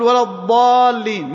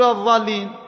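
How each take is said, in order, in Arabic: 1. تبدأ الكلمة بصوت الضاد المفخّم. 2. تبدأ الكلمة بصوت الظاء المفخّم. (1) "لا بد يقول ولا الضالين" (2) "ما يقول ولا الضالين، هذا خطأ"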